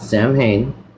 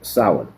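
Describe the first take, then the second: First: It sounds like a first and last name. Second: It does not sound like a person's name. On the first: The speaker calls it wrong. "It's not Samhain. It's not a first nor last name" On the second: The speaker calls it right. "this word right here is Samhain"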